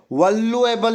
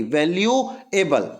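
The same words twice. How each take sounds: First: वल्युएबल read as misspelt, doubled L; "val-lu-able" for वल्युएबल; misspelling read out. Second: Slow वैल्यूएबल with "vel-yu" start; वैल्यूएबल drawn out, single L; correct spelling read out. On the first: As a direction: say वल्युएबल with a short "val-lu" start. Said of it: "वल्लू नहीं लगता". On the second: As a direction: say वैल्यूएबल slowly as "vel-yu-able". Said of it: "V A L U E". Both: Shown as a demonstration.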